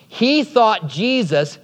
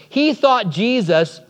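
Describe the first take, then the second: No difference in how they are said.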